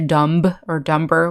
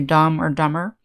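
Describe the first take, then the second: First: The B sound is pronounced in the words. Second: The B is silent, with no B sound. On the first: The speaker calls it wrong. "we don't say" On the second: The speaker calls it right. "we say"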